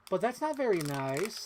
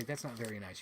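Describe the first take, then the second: First: High, slow singsong reproach starting on "But"; full catchphrase. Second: Said in the usual way. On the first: Shown as a demonstration. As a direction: draw out the quote, lifting the end. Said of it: "you have to say the full phrase". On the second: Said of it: "You can't just say".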